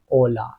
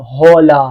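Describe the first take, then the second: First: It begins directly with the vowel. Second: It begins with an audible h sound. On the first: The speaker calls it right. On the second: The speaker calls it wrong.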